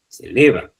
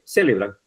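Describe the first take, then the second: First: "celebran" with a firm stressed middle LE. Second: "celebran" with the stress moved off LE; wrong stress. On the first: Teacher correcting the wrong version, stress on LE in "celebran". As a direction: hit the LE in "celebran". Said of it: "Dice celebran". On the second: Teacher showing what nobody says, "celebran" stressed off the LE. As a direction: say "celebran" without punching the middle LE. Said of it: "Porque usted no dice celebran". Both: Shown as a demonstration.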